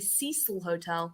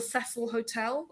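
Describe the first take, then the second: First: Cecil is said the American way. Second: Cecil is said the non-American way.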